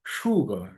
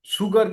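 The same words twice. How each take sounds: First: সুগার with a sh start, shoo-gar; the right sugar, sh sound; correct pronunciation. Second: সুগার with a plain s, the wrong way; wrong pronunciation. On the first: Teacher gives the correct sugar. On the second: Teacher shows the mistaken sugar. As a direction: read সুগার as soo-gar, flat s. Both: Shown as a demonstration. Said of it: "সুগার কিন্তু বলি না".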